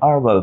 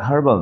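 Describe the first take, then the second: First: The word begins with a vowel, no h. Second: The word begins with an h sound. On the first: The speaker calls it right. "যদি British অ্যাকসেন্টে বলি ওরা একটু চেপে উচ্চারণ করে" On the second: The speaker calls it wrong. "এটা হার্বাল না"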